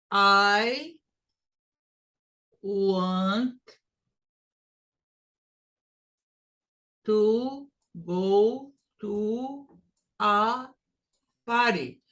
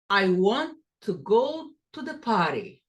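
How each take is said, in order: First: Every word stressed the same, slow and choppy; wrong way: hit each word evenly; flat even stress. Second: "go" stressed, the little words reduced. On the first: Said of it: "No, it's no good. It's horrible and it's wrong". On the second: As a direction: let "go" rise and the rest fall away. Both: Shown as a demonstration.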